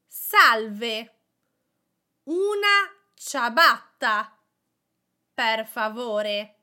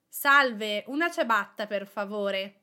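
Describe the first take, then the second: First: It is said slowly. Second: It is said at normal speed.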